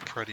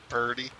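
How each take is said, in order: First: The word is said as pretty, with a t. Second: The word is said as purdy, with r and d. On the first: "I always say pretty a lot" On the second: "purdy if you're if you want to go that far. P E R T Y, purdy"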